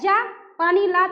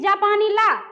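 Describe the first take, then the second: First: There is a short pause after the first syllable. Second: The words run together without any pause. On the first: It tells someone to go and bring water. "अगर रुक गए जा पानी ला तो मतलब पीने की चीज ला" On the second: It refers to a person from Japan. "कहते हैं कि जापानी ला तो मतलब कोई जापान का व्यक्ति है"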